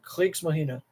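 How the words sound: It is said in a German accent.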